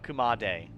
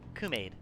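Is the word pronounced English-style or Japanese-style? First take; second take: Japanese-style; English-style. First: It is pronounced like a Japanese word. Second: It is pronounced like an English word. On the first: The speaker calls it right. "It's probably Japanese, so it'd be a kumade" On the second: The speaker calls it wrong. "I'm reading it as if it's as if it's English"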